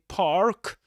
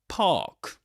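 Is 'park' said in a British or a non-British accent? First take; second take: non-British; British. First: It is said in a non-British accent. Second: It is said in a British English accent. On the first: The speaker calls it wrong. "You don't say park" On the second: The speaker calls it right. "but park in this accent"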